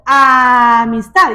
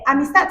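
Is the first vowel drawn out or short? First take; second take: drawn out; short. First: The first vowel is drawn out and long. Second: The first vowel is short and normal. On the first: The speaker calls it right. "arrastrar la vocal inicial" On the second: The speaker calls it wrong. "no les decimos a los niños"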